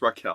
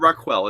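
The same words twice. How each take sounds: First: The middle consonant is said as plain k. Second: The middle consonant is said as kw. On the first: The speaker calls it right. "it's Raquel, yes" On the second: The speaker calls it wrong. "It's not Raquel"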